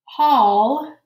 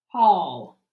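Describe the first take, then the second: First: Called out high and loud with a rising tune; first call of the word, rising; dictation word, rising. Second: Second call of the word, falling; dictation word, falling. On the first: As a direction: announce the spelling word up and loud, lifting at the end. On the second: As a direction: settle the word down, a falling repeat. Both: Shown as a demonstration.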